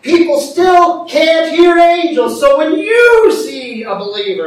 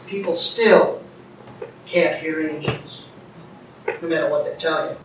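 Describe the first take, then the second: First: High, loud, forceful proclamation; emphatic preaching. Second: Lower, softer, measured statement; quiet aside. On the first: Preacher urging folks to step in, loud emphatic delivery. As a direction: belt it out to the congregation. Emphatic repeat of quiet statement. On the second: Preacher telling folks about angels, quiet understated delivery. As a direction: say it low and restrained. Quiet take before emphatic repeat. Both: Real, not acted.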